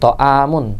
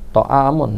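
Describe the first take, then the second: First: The middle sound is plain, like alif. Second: The middle sound is a throaty ain. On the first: The speaker calls it wrong. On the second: The speaker calls it right.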